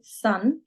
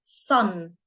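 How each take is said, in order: First: Said in the usual way. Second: "Son" with a heavy, dark Arabic-style s; over-emphasise the opening of "Son"; emphatic s. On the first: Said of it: "So you're not saying son". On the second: Shown as a demonstration. Teacher models the Arabic sound through English, emphatic s. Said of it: "make that sound even more emphatic".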